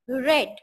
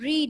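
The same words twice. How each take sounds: First: It is pronounced as the past form. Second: It is pronounced as the present base form. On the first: "The second form of the verb read is read" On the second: "the verb read"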